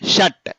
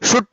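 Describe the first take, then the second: First: The vowel is an open 'uh' sound. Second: The vowel is a rounded 'oo' sound. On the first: The speaker calls it right. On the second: The speaker calls it wrong. "షుట్ కాదు అది"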